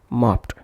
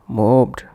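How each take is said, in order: First: The ending is pronounced as a t sound. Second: The ending is pronounced as a ud syllable. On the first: "not as t" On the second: "or ud"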